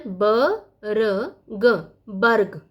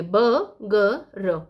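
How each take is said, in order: First: ब, र, ग slowly apart, then joined as बर्ग with र before ग; sounded out, then blended. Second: ब, ग, र very slowly apart, र at the end; wrong sound order. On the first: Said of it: "उच्चारण होगा रेफ का". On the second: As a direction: sound out ब ग र one by one, र after ग. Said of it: "ऐसे नहीं पढ़ेंगे". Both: Shown as a demonstration.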